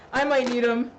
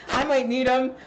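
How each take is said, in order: Both takes have the same delivery.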